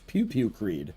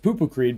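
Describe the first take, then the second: First: The first words sound like 'pew pew'. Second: The first words sound like 'poo poo'. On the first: This is the name as originally intended. The speaker calls it right. "my original name, which was Pew Pew Creed" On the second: This is how someone with a foreign accent said it. The speaker calls it wrong. "mispronounced ... as Pupu Creed because of her accent"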